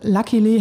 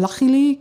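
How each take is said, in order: First: It is said with a plain k sound. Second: It is said with a Scouse, ch-like k sound.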